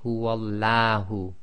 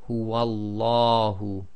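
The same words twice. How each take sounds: First: The L is light, said with a thin sound. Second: The L is heavy, said with a full mouth. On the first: The speaker calls it wrong. "You cannot say" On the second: The speaker calls it right. "tafkhim, that is full mouth, giving the sound of la, as in the English word large"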